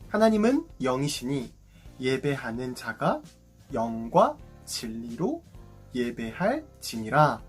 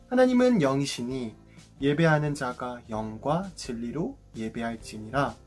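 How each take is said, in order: First: The verse is read slowly and deliberately. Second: The verse is read at a normal pace.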